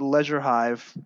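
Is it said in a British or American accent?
British. It is said with a British pronunciation.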